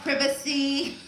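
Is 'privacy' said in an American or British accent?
British. It is said in a British accent.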